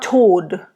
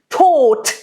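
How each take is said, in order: First: The word ends with a soft D sound. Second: The word ends with a hard T sound. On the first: The speaker calls it wrong. "It's not Tod" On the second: The speaker calls it right. "It's very hard. It's like a T"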